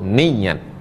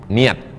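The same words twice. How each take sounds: First: The y sound is doubled and held longer. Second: The y sound is single, not lengthened. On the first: This is the well-known form. "yang masyhur" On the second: This is a less common accepted form. "tidak perlu pakai tasydid, takhfif"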